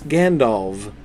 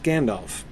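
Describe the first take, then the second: First: The final sound is a V. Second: The final sound is an F. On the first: The speaker calls it right. "it is used to represent the sound of V" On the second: The speaker calls it wrong. "not Gandalf"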